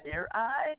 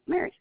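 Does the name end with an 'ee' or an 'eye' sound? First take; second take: eye; ee. First: The name ends with an 'eye' sound. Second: The name ends with an 'ee' sound. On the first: The speaker calls it wrong. "nobody knows how to pronounce it. It's like" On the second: The speaker calls it right. "It's just Mary"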